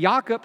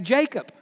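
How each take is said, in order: First: The name is said with a Hebrew pronunciation. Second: The name is said with an English pronunciation. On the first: This is how the original speakers would say it. "we don't say Jacob" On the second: This is how English speakers normally say it. "we say Jacob"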